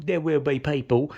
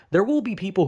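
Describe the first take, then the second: First: "people" said as "pay-pull"; mock mispronunciation. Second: Said in the usual way. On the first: Mocks own slip on the word.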